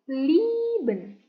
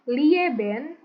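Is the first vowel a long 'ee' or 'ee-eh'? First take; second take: long ee; ee-eh. First: The first vowel is one long ee sound. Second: The first vowels are said separately as ee-eh. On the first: The speaker calls it right. "I E dibacanya I, tapi agak panjang" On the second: The speaker calls it wrong. "bukan lieben"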